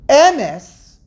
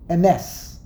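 First: The stress is on the first syllable. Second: The stress is on the second syllable. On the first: The speaker calls it wrong. "which is the wrong pronunciation" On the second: The speaker calls it right. "the correct pronunciation is ms. Ms on the second syllable"

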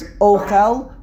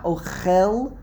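First: The stress is on the first syllable. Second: The stress is on the last syllable. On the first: It is a noun meaning food. "When it's ochel with a segol and mile'el, it is a noun" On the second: It is a verb meaning eating. "milara, ochel, a tsere, and milara, it means it's a noun. It's a verb"

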